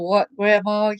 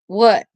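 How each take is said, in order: First: It is said in a sweet tone. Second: It is said in an annoyed tone.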